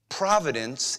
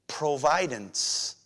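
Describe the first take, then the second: First: It is said with the usual pronunciation. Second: It is said so that 'provide' is heard inside. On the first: Seeing something in advance. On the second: Seeing in advance and stepping in to provide.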